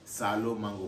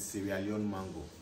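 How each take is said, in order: First: The place name is squeezed into two short syllables. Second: The place name is said fully with every syllable. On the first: This is the everyday local way of saying it. "because of accent and pronunciation, we say Salo mango" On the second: This is the proper name of the place. "but it's Sierra Leone mango"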